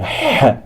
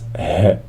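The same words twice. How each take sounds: First: The h is made deep in the throat. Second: The h is a light, plain breath. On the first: The speaker calls it right. "It's pronounced in the throat. You say h" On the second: The speaker calls it wrong. "not h"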